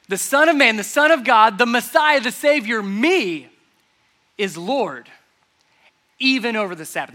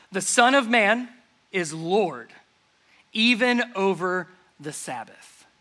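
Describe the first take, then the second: First: Louder, higher build of titles; emphatic proclamation. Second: Measured, slow phrasing with pauses; slow quiet declaration. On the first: Preacher proclaiming Jesus' titles to the congregation, loud and emphatic. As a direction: proclaim each title like a fanfare. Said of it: "repeats declaration louder". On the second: Jesus calmly declaring to the Pharisees, slow and measured. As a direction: let each phrase hang in the air. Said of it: "repeated louder afterwards". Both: Shown as a demonstration.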